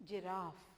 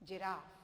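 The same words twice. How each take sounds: The two takes are said the same way.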